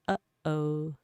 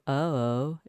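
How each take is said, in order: First: A sharp throat catch stops the first vowel. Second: The vowels run on without a throat catch. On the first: The speaker calls it right. "It stops midway through" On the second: The speaker calls it wrong. "instead of"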